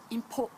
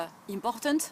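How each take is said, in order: First: Important with the stress on POR and the last syllable swallowed; English way. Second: Important with every syllable even, French nasal vowels. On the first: Teacher shows the English pronunciation of important. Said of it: "mais en anglais, ça sera". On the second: Teacher shows how a French speaker says important. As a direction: say important the French way, stress falling on the end. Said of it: "un francophone dira". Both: Shown as a demonstration.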